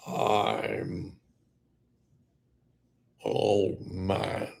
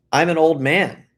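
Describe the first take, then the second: First: Put-on slow, soft, stretched-out old man. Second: Said in the usual way. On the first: Shown as a demonstration. Contrasting with normal speech, old man voice. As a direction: say it slowly and quietly as an old man. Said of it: "the pronunciation of your words". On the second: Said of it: "But if you go".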